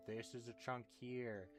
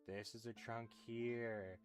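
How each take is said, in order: Both takes have the same delivery.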